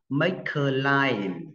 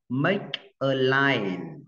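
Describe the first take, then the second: First: The words are linked together smoothly. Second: The words are said separately, without linking.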